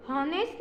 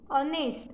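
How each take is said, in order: First: हॉनेस्ट with an audible h at the start; हॉनेस्ट, h pronounced by mistake; wrong h sounded. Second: ऑनेस्ट starting on the vowel, no h; ऑनेस्ट with the h dropped; silent h. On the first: Teacher warning pupils against हॉनेस्ट, h pronounced. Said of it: "हॉनेस्ट नहीं". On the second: Teacher giving pupils the correct ऑनेस्ट, silent h. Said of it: "एच ए silent है". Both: Shown as a demonstration.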